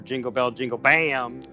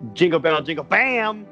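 First: It is said with little energy. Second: It is said with more energy. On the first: The speaker calls it wrong. "a weak effort" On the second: The speaker calls it right.

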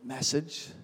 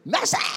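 First: It is said softly. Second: It is shouted very loudly.

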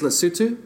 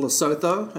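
First: The name is pronounced the local way. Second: The name is pronounced the American way. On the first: The speaker calls it right. "But it is Lesotho" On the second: The speaker calls it wrong. "as people like to say in America"

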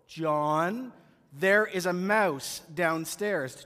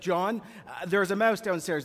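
First: It is said a little slowly. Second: It is said at a normal pace.

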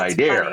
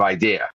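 First: An R sound is added at the end. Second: No R sound is added at the end. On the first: "We called it idea" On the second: "instead of idea"

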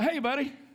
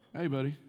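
First: The greeting sounds warm and friendly. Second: The greeting sounds cold and displeased. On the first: We had a great time together. "we just had a tremendous time" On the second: I am not happy with you. "Totally different. I just communicated the fact that I was not real happy with him"

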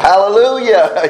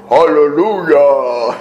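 First: It is said in an ordinary voice. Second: It is said in a deep bass voice.

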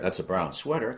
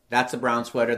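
First: It is said responsively, like real conversation. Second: It is said flatly, like a mechanical repetition.

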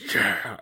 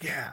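First: It is cheered with noticeably more enthusiasm. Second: It is cheered with mild enthusiasm. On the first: "commits 20% more" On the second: "they do it the first time"

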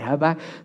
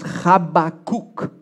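First: The name begins with a plain h sound. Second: The name begins with a throaty ch sound. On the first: "we sometimes use the name Habakkuk when we say this" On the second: "The way you pronounce this in Hebrew is Habakkuk. ... you got to do the ch in the beginning"

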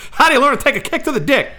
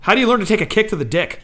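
First: It is said in an Oklahoma accent. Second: It is said in the speaker's ordinary accent.

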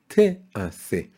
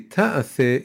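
First: The first vowel is a short 'eh' sound. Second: The first vowel is an open 'ah' sound. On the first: Work shall be done. The speaker calls it right. "it says te'ase" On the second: You will do work. The speaker calls it wrong. "It doesn't say ta'ase"

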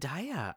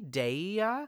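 First: The first syllable does not sound like 'dairy'. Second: The first syllable sounds like the start of 'dairy'. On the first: "but I've always said Daya" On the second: "Daya might technically be right because it's dairy"

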